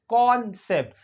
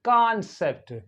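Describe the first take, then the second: First: British accent, with a rounded 'o' vowel. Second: American accent, with an open 'ah' vowel. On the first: "British English में पढ़ेंगे" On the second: "American English में पढ़ना है तो आप पढ़ेंगे"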